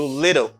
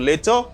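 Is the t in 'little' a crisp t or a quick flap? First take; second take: flap; crisp t. First: The middle t is a quick d-like flap. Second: The middle t is a crisp t sound. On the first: This is the American way of saying it. "aux États-Unis a dire little" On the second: This is the British way of saying it. "en Angleterre capable de dire little"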